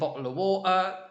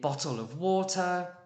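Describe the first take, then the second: First: The t in bottle is left out entirely. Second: The t in bottle is a soft t. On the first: "no T in bottle of water" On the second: "soft T in bottle of water"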